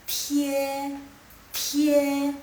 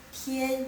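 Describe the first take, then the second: First: "tie" held high and level; loud, level, drawn-out "tie"; first tone. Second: Said in the usual way. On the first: Shown as a demonstration. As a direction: say "tie" in Mandarin first tone, sustained. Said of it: "nada satu". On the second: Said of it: "ditambah dengan nada satu".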